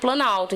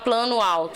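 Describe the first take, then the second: First: The words run together, dropping the final o. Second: The two words are said separately, each complete. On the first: The speaker calls it right. "A gente fala direto" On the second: The speaker calls it wrong. "Ninguém fala plano alto"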